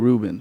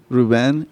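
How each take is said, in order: First: The name is pronounced with an English accent. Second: The name is pronounced with a Spanish accent. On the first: "the English version" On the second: "the Spanish version"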